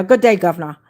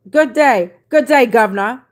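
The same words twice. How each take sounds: First: Said in the usual way. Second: Loud, lightly Aussie good day; mock Australian greeting. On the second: Host greeting an Australian viewer, mock Australian accent. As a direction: greet him like a hammed-up Australian. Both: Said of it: "All the way from Australia".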